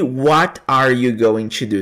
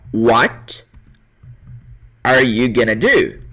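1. Cada palavra de 'going to' é dita separadamente. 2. As palavras são ligadas, e 'going to' vira 'gonna'. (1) "Você não vai ouvir" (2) "Você vai ouvir dessa forma, ó"

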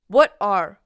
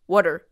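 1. 2つの単語は別々に言います。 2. 2つの単語はくっついて1つの短い単語になります。

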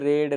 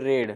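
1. स्वर ह्रस्व आहे, 'red' सारखा. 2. स्वर ह्रस्व आहे, 'red' सारखा.

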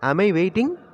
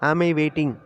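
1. முடிவில் குரல் ஏறுகிறது. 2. முடிவில் குரல் சமமாக அல்லது இறங்குகிறது. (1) "இந்த ரைசிங் டோன் வரணும்" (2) "ஆம் ஐ வெயிட்டிங் அப்படின்னு சொல்லக்கூடாது"

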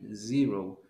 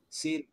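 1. El primer sonido es una z sonora. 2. El primer sonido no es una z sonora. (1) "ese sonidito ya lo tiene que llevar ahí" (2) "me están diciendo zero"

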